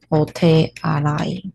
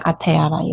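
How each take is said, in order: First: The word begins with an 'o' sound. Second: The word begins with an 'a' sound. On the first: The speaker calls it right. "是old 的发音哦" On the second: The speaker calls it wrong. "不是阿泰阿拉伊哦"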